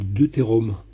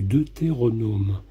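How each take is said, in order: First: The word is said with three syllables. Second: The word is said with four syllables. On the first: The speaker calls it wrong. "vous faites une erreur énorme. Vous parlez de deutérome" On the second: The speaker calls it right. "vous ne savez pas prononcer le nom du deutéronome"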